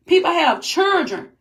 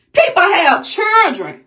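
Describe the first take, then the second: First: Said in the usual way. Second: Upset shout. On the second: Real, not acted. Outraged pleading about children.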